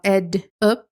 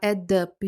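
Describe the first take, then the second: First: The two words are said separately. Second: The two words are linked together. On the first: "Em vez de falar" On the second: "juntando o som"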